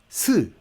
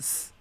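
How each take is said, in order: First: The hiss ends with a short vowel after it. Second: The hiss ends without any vowel after it. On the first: The speaker calls it wrong. "장애물의 형태가 없는 채로 끝난단 말이에요" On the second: The speaker calls it right. "이 상태로만 하면 되는 거고"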